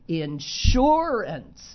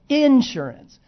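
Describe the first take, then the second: First: The stress is on the second syllable. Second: The stress is not on the second syllable. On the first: This is how most people say it. The speaker calls it right. "They say umbrella, the second syllable" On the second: This is how Pittsburghers say it. The speaker calls it wrong. "Most people don't say the words like that"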